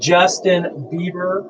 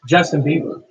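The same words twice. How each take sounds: First: The name is said slowly and deliberately. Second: The name is said at normal speed.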